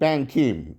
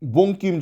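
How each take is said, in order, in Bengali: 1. প্রথম শব্দাংশটি 'bang' এর মতো শোনায়। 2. প্রথম শব্দাংশটি 'bon' এর মতো শোনায়।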